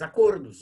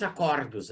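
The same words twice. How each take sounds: First: Acordos with a closed ô, like acôrdos; right closed vowel. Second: Acordos with an open ó, acordós-like; wrong open vowel. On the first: Teacher showing students the correct pronunciation of acordos. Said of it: "a gente não diz acordos". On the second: Teacher showing students the wrong pronunciation of acordos. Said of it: "a gente diz acordos". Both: Shown as a demonstration.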